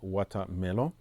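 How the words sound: It is said with a British accent. "et surtout anglaise"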